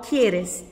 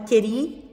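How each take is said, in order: First: The full form ends in an -es syllable. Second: The shortened form ends in a stressed i. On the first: The speaker calls it right. "Então eu falo quieres" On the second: The speaker calls it wrong. "O chileno, no geral, ele fala queri"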